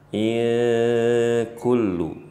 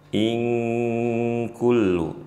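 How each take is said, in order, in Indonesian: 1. N diucapkan dengan jelas sebelum k. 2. N disamarkan ke dalam k yang tegas. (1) "jangan dibaca in kullu, ini kurang tepat" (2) "Dan bunyinya in kullu"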